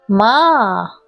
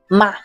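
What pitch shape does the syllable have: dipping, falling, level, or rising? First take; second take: dipping; rising. First: The pitch falls low and then rises. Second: The pitch rises from middle to high. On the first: It means horse. "un tono descendente ascendente... que baja y sube el sonido" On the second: It means hemp. "un tono ascendente"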